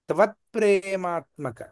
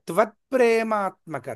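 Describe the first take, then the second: Both takes have the same delivery.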